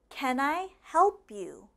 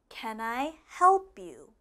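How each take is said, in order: No difference in how they are said.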